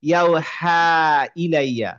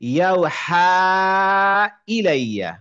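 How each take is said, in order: First: The long vowel is kept short, not stretched. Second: The long vowel is stretched for about four counts. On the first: "আর যদি বলেন না" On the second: "আপনি যদি চার কাউন্ট দিতে চান তান দিবেন"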